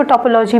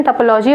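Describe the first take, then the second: First: टोपोलॉजी with a full o in the first syllable; common alternative pronunciation. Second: टोपोलॉजी with a short, reduced first vowel, "tuh-"; standard pronunciation. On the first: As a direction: say टोपोलॉजी the everyday way, opening on a full "to-". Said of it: "इसको टोपोलॉजी भी पढ़ लेते हैं". (टोपोलॉजी का आम उच्चारण, पहले स्वर में पूरा "ओ") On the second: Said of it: "basically इसका प्रोनाउंसिएशन टोपोलॉजी होता है". (टोपोलॉजी का मानक उच्चारण, पहला स्वर हल्का "ट") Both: Shown as a demonstration.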